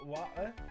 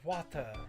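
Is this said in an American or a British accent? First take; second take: British; British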